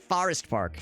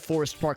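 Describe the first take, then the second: First: Forest Park gets an exaggerated St. Louis-style vowel. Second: Forest Park is said in a plain, normal way.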